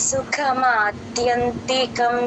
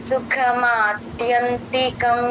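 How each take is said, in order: Both takes have the same delivery.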